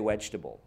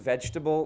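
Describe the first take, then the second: First: It begins with a W sound. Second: It begins with a V sound. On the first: "we will say vegetable" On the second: "say the word is vegetable"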